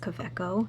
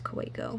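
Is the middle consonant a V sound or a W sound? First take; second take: V sound; W sound. First: The middle consonant is a V sound. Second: The middle consonant is a W sound. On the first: It follows the local language's habit. "we pronounce our W's if it's like in the middle of a word as V's" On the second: It is the brand's likely intended pronunciation. "I'm pretty sure it's Kaweco"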